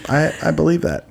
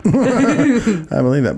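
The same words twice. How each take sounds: First: Said in the usual way. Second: Laughing. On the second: Real, not acted. Repeats it laughing.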